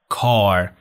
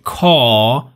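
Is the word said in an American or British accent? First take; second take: American; British. First: The final r sound is clearly pronounced. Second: The final r sound is not pronounced. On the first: "توی امریکن میگیم کار" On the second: "توی بریتیش بگیم کا"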